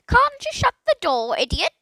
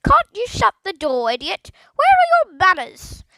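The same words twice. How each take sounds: First: High, loud, impatient squawk; impatient parrot voice. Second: High, loud squawk; scolding parrot. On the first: Parrot scolding Philip from nowhere, high impatient squawk. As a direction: snap it out like a cross bird. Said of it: "in a most impatient tone". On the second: Parrot scolding Philip face to face, loud high squawk. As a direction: screech the rebuke. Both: A narrator's reading.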